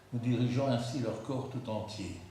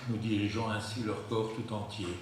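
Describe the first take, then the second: No difference in how they are said.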